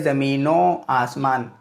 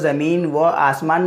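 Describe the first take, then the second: First: An 'o' sound joins onto the first word. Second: The 'va' is said as a separate word. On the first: The speaker calls it right. "बल्कि ज़मीनो आसमान" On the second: The speaker calls it wrong. "ज़मीन व आसमान नहीं पढ़ेंगे"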